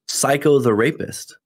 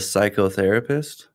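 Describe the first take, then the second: First: It is split into three separate words. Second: It is said as one single word. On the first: It names a violent criminal. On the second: It names a mental health professional.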